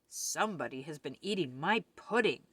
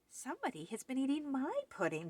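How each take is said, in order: First: It is said in a great big voice. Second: It is said in a wee little voice.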